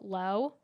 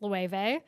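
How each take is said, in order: First: The name is said as one syllable. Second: The name is said with several syllables. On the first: Other people say it this way. The speaker calls it wrong. "I've seen some people call it low" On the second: The speaker believes this is correct. The speaker calls it right. "but I think it's Loewe"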